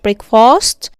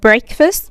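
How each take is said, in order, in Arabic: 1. المقطع الثاني كامل، مثل 'fast'. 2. المقطع الثاني مختزل، مثل 'fist'.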